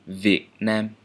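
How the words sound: The first word begins with a v sound. This is the standard pronunciation. "the labial dental sound"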